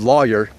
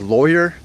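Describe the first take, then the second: First: It uses the speaker's home-region pronunciation. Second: It uses the Californian pronunciation. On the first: "where I was raised, it's called lawyer" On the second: "where my wife's from in California, they say lawyer"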